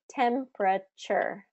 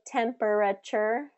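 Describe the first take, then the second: First: The word is said with three syllables, one dropped. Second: The word is said with four full syllables. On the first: The speaker calls it right. "We say temperature" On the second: The speaker calls it wrong. "We don't say temperature"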